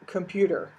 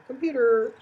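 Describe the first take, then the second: First: Said in the usual way. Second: Computer, said much higher and louder. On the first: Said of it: "You can say the word". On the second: Shown as a demonstration. Lecturer showing tone changes nothing in English, high pitch. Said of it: "four or five different tones there".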